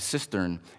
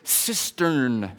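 First: The word is said loosely, without careful enunciation. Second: The word is said with careful, crisp enunciation. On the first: It could be misheard as a different word. The speaker calls it wrong. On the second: It is clearly the intended word. The speaker calls it right.

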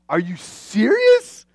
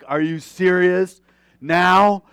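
First: It sounds happily surprised and delighted. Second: It sounds annoyed and exasperated.

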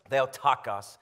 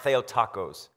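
First: The word ends without sounding like tacos. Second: The word ends sounding like the word tacos. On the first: The speaker calls it right. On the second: The speaker calls it wrong.

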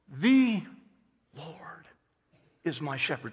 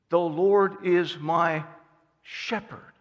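First: The stress is on "The". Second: The stress is on "my".

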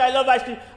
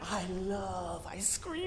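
First: It is said plainly, without feeling. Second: It is said with strong, joyful emotion.

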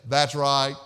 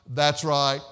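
Both takes have the same delivery.

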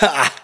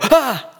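First: It sounds like a mocking laugh. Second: It sounds like a frightened gasp.

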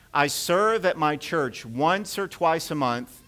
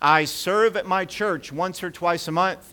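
First: It is read in a plain, calm way. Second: It is read loudly with strong energy.

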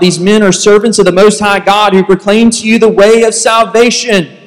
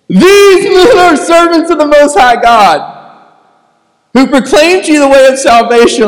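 First: It is read plainly, without mockery. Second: It is said in a mocking, taunting voice.

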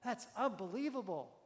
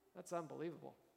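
First: It sounds amazed and impressed. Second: It sounds doubting and disbelieving.

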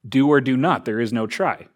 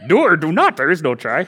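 First: It is said in the speaker's normal voice. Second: It is said in a put-on character voice. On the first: "as Jedi Master Yoda would put it" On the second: "Should I do the voice? ... I can't do Yoda"

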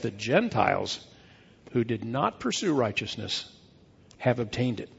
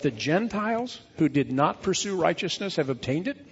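First: The voice falls at the end like a statement. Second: The voice rises at the end like a question. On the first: It is asserted as a fact. The speaker calls it right. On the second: It is asked as an open question. The speaker calls it wrong.

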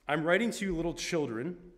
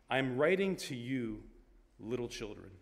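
First: It is read at a quicker pace. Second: It is read at a slower pace.

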